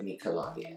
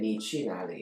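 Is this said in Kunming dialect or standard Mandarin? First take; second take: Kunming dialect; standard Mandarin. First: It is said in the local Kunming dialect. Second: It is said in standard Mandarin pronunciation. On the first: This is how locals say it. "it would be like" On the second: This is the usual way to say it. "instead of saying"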